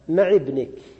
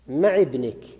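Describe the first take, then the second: First: The first word ends with an 'i' vowel. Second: The same.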